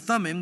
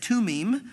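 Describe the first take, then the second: First: The word starts with a soft 'th' sound. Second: The word starts with a plain 't' sound. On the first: This is the usual English way of saying it. "we'd say Thummim" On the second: This is how speakers of the original language say it. "They would say Tumim"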